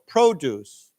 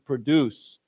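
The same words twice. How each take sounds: First: The stress is on the first syllable. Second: The stress is on the second syllable. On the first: It is a noun meaning farm goods. "the accent is on the first syllable" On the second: It is a verb meaning to make something. "then it's on the second syllable"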